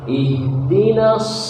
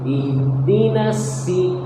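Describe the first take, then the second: First: The consonant is a heavy, whistling s sound. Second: The consonant is pronounced as a plain s. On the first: "seperti orang bersuil" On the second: "dekati ke sin"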